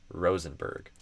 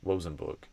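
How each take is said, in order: First: The R sounds are full, clear English Rs. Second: The R sounds are weak, like a W. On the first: The speaker calls it right. "I eventually learned to say Rosenberg" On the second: The speaker calls it wrong. "I said them kind of like a weaker R or maybe a W"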